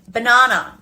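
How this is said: It is said with an Australian accent. "And banana instead of"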